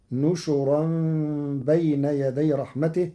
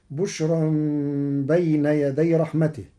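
First: نشرا said nushuran, n and sh with u; Warsh reading of نشرا. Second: بشرا starts with b, bushran; common reading of بشرا. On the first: Teacher shows Warsh, نشرا as nushuran. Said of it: "بنون وشين مضمومتين". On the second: Teacher recites the usual form, بشرا with b. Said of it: "قرأ ورش كلمة بشرى". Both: Shown as a demonstration.

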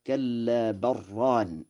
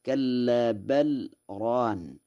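First: Lam of بل merged into a doubled r in ران; no pause, بل ران said as one word with rolled double r; assimilation without pause. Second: Lam of بل said clearly, apart from ران; unassimilated reading. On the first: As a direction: run بل ران together as "barraan". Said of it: "بالإضغام بلا سكت، فيقرأ هكذا". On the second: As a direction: keep بل and ران as two separate words. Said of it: "قرأ ورش بالإضغام بلا سكت". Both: Shown as a demonstration.

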